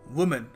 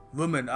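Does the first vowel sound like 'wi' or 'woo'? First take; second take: woo; woo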